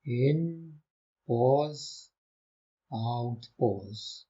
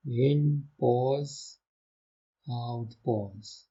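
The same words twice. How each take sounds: The two takes are said the same way.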